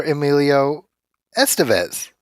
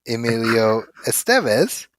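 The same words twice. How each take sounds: First: Estevez as ES-te-vez, set against the other version; first-syllable stress. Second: Estevez as es-TEV-ez, set against the other version; second-syllable stress. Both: Shown as a demonstration. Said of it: "would you call him".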